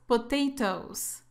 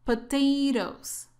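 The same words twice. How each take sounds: First: "potatoes" with a crisp second t, British style. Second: Careful American "Potatoes", ending like "dose"; American soft T. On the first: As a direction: sound both t's hard in "potatoes". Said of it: "Eso es más un inglés británico". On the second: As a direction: say "Potatoes" the American way, last t softened to a flap. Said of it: "estamos practicando inglés americano". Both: Shown as a demonstration.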